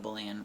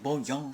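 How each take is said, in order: First: It is said the plain English way. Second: It is said the French way. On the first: This is how the speaker himself says it. "which I guess I say wrong" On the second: This is how rich people say it. "you rich people are saying bouillon"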